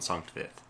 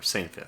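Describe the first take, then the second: First: The name is said in a non-English way. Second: The name is said in an English way.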